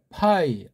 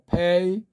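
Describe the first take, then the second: First: The vowel is said like 'eye'. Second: The vowel is said like 'ay'. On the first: "독일식이면" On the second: "미국식으로 읽으면"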